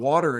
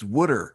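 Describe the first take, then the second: First: Water is said in a plain, neutral accent. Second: Water is said in a Philadelphia accent.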